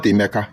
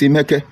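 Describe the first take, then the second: First: Emeka, ending in a clear "ah"; wrong name Emeka. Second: Emeke, ending in a clear "eh"; right name Emeke. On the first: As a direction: say Emeka with an open final a. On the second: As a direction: say Emeke with a final e sound. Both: Shown as a demonstration. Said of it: "look at that spelling of Emeke".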